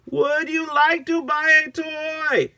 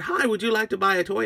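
First: Slow, loud, very high, stretched words; over-enunciated repeat. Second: Quick, high-pitched friendly offer; little seller's pitch. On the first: Agnes to an uncomprehending minion, slow and loud. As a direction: spell it out for someone who doesn't understand. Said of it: "I don't know what he's saying". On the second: Agnes greeting a customer, high and quick. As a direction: offer it fast in a raised voice. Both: Acted.

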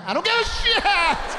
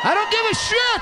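First: Exasperated shout. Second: High, loud fed-up yell; exasperated shout. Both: Retold or imitated. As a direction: explode at the guessing game.

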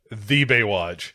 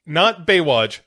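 First: "the" drawn out slowly before "Baywatch"; stress on the. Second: Said in the usual way. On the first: Shown as a demonstration. Correcting co-host about Brian's line, slow stress on "the". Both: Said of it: "Not Baywatch, the Baywatch".

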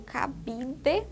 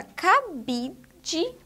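First: "cabide" slowly, final syllable a clear de; spelled ending DE. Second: "cabide" drawn out, last syllable said dji; spoken ending DJI. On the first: Teacher offering the other reading, ending said de. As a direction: say "cabide" as ca-bi-de, hard d and full e. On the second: Teacher pointing out the last syllable, ending said dji. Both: Shown as a demonstration. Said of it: "ou cabide".

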